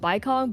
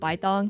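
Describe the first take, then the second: First: The second syllable begins with a k sound. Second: The second syllable begins with a t sound. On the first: This is how the speaker would naturally say the name. "I wanna call him Baikong" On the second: This is how the name is said in the story. "they pronounce it Baitong in the story"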